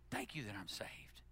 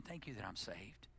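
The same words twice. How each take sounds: First: Whispered prayer. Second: Much softer, low and intimate; soft prayer. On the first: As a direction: whisper it, no voice at all. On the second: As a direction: say it as a hushed private thanks to God. Private prayer of thanks. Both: Acted.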